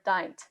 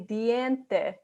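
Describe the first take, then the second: First: The vowels collapse into one short English vowel. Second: Each vowel sound is pronounced separately. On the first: The speaker calls it wrong. "Or dint" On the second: The speaker calls it right. "in Spanish, we want to make sure that we separate each of the vowel sounds"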